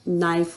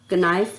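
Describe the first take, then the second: First: The word starts directly with the n sound. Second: A k sound is heard before the n. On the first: The speaker calls it right. "नाइफ होगा" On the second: The speaker calls it wrong. "कनाइफ नहीं होगा"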